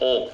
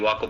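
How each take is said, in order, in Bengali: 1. এই স্বরটি 'aw' ধ্বনি, ঠোঁট গোল করে। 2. এই স্বরটি খোলা 'a', ঠোঁট গোল নয়। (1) "উচ্চারণটা হচ্ছে ওক গোল দেখো ঠোঁটটা কত সুন্দর করে গোল করে বলো" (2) "আমরা বাংলাদেশের ওয়াক বলি ওয়াক ভুল"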